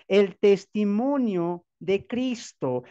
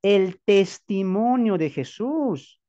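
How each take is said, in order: First: "el testimonio de Cristo" said slowly, leaning on "testimonio"; slow, weighty stress on "testimonio"; slow emphatic answer. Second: "El testimonio de Jesús" drawn out slowly, leaning on "testimonio"; slow emphatic answer. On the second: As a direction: spell out "testimonio" slowly, word by word. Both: Acted. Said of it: "¿Qué dice según la Biblia".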